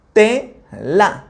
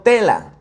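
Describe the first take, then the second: First: TE, pause, LA; split into syllables. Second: Said in the usual way. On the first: Shown as a demonstration. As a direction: say tela as two separate syllables, te rising. (tela, separado en sílabas: te-la)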